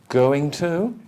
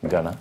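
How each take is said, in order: First: Both words are said in full. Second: The words are reduced and run together.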